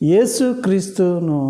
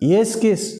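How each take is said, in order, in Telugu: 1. పేరులోని ప్రతి అక్షరాన్నీ స్పష్టంగా పలుకుతారు. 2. కొన్ని శబ్దాలను వదిలేసి, రెండు అక్షరాలకు కుదిస్తారు.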